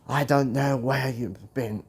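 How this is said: It is said in an Australian-sounding accent. "that sounded more Australian"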